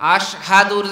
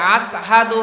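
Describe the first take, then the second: First: The middle consonant is a 'sh' sound. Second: The middle consonant is an 's' sound. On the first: This is the intended standard form. "আশহাদুর জায়গায়" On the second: An injured tongue changed the sound. "আসহাদু হয়ে যেত"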